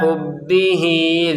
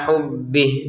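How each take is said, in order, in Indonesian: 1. Kata ini berakhir dengan vokal i yang dipanjangkan. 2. Kata ini berakhir dengan konsonan, tanpa vokal. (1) "Ketika disambung maka menjadi dua harokat" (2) "untuk kata hubbih kita gak panjang sama sekali karena kita berhenti"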